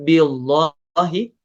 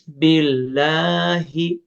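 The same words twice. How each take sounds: First: The L sound is heavy and thick. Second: The L sound is light and thin. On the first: The speaker calls it wrong. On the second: The speaker calls it right. "dibaca tipis"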